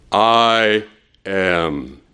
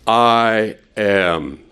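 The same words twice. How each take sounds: First: Slow, deliberate "I... am"; pause between the words. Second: Said in the usual way. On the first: Shown as a demonstration. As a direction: split "I" and "am" with a weighty pause. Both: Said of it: "Now, are you listening?".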